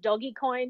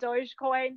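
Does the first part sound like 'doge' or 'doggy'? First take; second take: doggy; doge. First: The first part sounds like the word 'doggy'. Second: The first part is one syllable, not 'doggy'. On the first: This echoes the misspelled word dog from the meme. "There is a contingent that pronounces it Doggycoin" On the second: This is the common way to say it. "most people will pronounce it Dogecoin"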